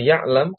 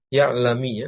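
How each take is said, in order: First: The word ends on a bare consonant. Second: The word ends with an added i vowel. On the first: "yang semula ya'lam karena jazm" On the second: "menjadi dibaca kasrah"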